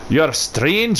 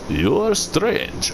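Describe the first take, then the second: First: It is spoken in a Scottish accent. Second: It is spoken in a Russian accent. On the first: "Could have like the Scottish tree" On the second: "like the Russian tree"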